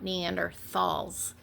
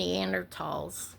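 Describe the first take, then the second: First: The 'thal' part is said with a th sound. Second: The 'thal' part is said with a plain t sound. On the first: The speaker calls it wrong. "not Neanderthals" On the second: The speaker calls it right. "I'm calling them Neanderthals"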